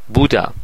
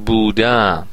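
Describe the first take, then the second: First: The stress is on the first syllable. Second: The stress is on the second syllable. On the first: It is the simple past. "من مثلا گذشته رو میگم" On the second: It is the present perfect. "شما باید ماضی نقلی بگید"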